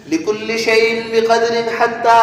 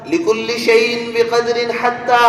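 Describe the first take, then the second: No difference in how they are said.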